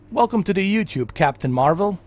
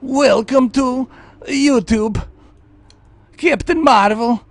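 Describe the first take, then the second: First: It is said in his own normal voice. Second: It is said in a Borat impression voice.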